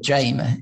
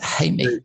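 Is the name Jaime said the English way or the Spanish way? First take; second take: English; Spanish. First: The name is said with an English pronunciation. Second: The name is said with a Spanish pronunciation. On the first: "if you were pronouncing it in English way" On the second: "I think you pronounce it Jaime"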